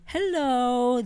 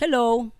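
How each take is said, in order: First: The greeting sounds sweet and flirty. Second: The greeting sounds plain and flat. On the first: The speaker likes the listener. "pag crush mo" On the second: The speaker has no special feelings. "Pero pag hindi mo crush"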